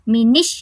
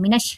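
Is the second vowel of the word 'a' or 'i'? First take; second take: i; a. First: The second vowel sounds like 'i'. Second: The second vowel sounds like 'a'. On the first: The speaker calls it wrong. "बाज़ यहाँ पे मिनिश पढ़ते हैं, ये भी रॉन्ग है" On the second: The speaker calls it right. "मिनश पढ़ना है"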